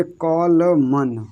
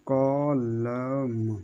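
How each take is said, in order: First: कॉलमन stretched slowly with a sounded final N; slow-motion कॉलमन, N clearly voiced; drawn-out wrong reading. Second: कॉलम stretched very slowly, softly, to a long M; soft, slow-motion कॉलम with no N; drawn-out demonstration. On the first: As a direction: draw out कॉलमन, "co-o-la-mannn". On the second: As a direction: draw out कॉलम quietly, "co-o-lammm". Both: Shown as a demonstration. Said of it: "कॉलमन और कॉलम में अंतर देखो".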